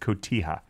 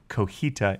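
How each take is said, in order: First: The t sound comes before the j sound. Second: The j sound comes before the t sound. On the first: The speaker calls it right. "instead of cotija" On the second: The speaker calls it wrong. "I will apologize for saying cojita"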